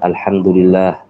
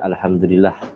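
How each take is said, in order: First: The vowel in 'lah' is held long. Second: The vowel in 'lah' is kept short. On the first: The speaker calls it right. "lafaz Allah mengandung mat di sana" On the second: The speaker calls it wrong.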